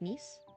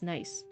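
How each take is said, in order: First: It is said the French way, like neese. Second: It is said like the English word nice. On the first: The speaker calls it right. "it's pronounced like Nice" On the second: The speaker calls it wrong. "it's not pronounced nice in France"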